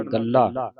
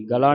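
First: ਗੱਲਾ with doubled l, "gal-laa"; correct reading. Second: ਗਲਾ with single short l; wrong reading. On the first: Teacher models the word for students, doubled l. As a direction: hold the l before the long a. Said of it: "ਗਲਾ ਨਹੀਂ ਪੜ੍ਹਨਾ". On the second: Teacher shows the misreading to avoid, single l. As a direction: say "ga-la", no doubling. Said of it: "ਨਹੀਂ ਪੜ੍ਹਨਾ". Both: Shown as a demonstration.

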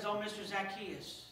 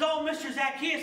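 First: Quiet, weary plea; a touch of a worn-out woman begging; mild downtrodden sigh. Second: Higher, louder joyful greeting; bright excited welcome; happy and exuberant. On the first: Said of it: "who was downtrodden and, and suffering". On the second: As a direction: greet him like the best news ever. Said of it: "happy and exuberant and, and excited". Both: Acted.

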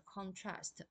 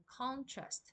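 First: "contrast" as a verb, stressed on TRAST; stress on second syllable. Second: "contrast" as a noun, stressed on CON; stress on first syllable. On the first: Teacher contrasting verb with noun, "contrast" slowly stressed on TRAST. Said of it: "动音在第二个音节". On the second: Teacher showing students the noun, "contrast" slowly stressed on CON. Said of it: "重音在第一个音节". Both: Shown as a demonstration.

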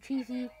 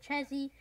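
First: "Cheesy" said with a long ee; guessed name pronunciation. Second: "Chezzy" said with a short e; his own pronunciation. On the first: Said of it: "I don't know how you pronounce his name". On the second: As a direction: say "Chezzy" to rhyme with "fezzy". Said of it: "He pronounces it Chezzy". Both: Shown as a demonstration.

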